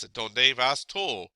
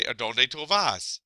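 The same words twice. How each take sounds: First: Vas before tú, tú stressed at the end; "A donde vas tú?" with falling stress on "tú"; other places' word order. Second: Tú before vas, vas stressed at the end; "A donde tú vas?" with falling stress on "vas"; Puerto Rican word order. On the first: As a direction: say "A donde vas tú?" slowly, landing on "tú". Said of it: "Whereas in other places". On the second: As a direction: say "A donde tú vas?" slowly, landing on "vas". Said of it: "one change in Puerto Rico, you'd say". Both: Shown as a demonstration.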